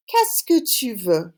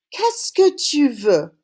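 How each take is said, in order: First: Said in the usual way. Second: Slow, careful Qu'est-ce que tu veux with each syllable spaced out; slow model phrase. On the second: Shown as a demonstration. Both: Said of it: "Say it after me".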